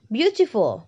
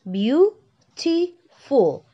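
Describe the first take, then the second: First: Said in the usual way. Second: Beautiful stretched out slowly, higher, each syllable drawn apart; teacher drawing out Beautiful syllable by syllable. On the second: Shown as a demonstration. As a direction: spell out Beautiful slowly for the class to count syllables. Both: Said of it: "Three syllable".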